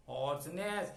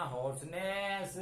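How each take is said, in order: First: Said in the usual way. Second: "hoarseness" drawn out slowly, every sound clear; slow model word for the class; slow teaching word. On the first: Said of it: "उस गला बैठने को बोलते हैं hoarseness.". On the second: Shown as a demonstration. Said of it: "horse जो है घोड़ा वाला हॉर्स नहीं है".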